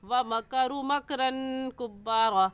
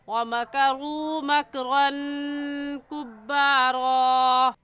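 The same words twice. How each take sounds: First: The vowel in makru is cut short. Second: The vowel in makru is drawn out long. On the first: The speaker calls it wrong. "कभी ऐसे ही पढ़ जाते हैं और ऐसे पढ़ते हैं" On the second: The speaker calls it right. "बल्कि ऐसे खींचेंगे"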